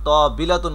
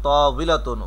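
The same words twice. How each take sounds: First: The middle consonant is a b sound. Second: The middle consonant is a w sound. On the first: The speaker calls it wrong. "কখনোই বর মতো হবে না, মানে তাবিলাতুন বলা যাবে না, তবে ভুল হবে" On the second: The speaker calls it right. "ওয়াউজের উই"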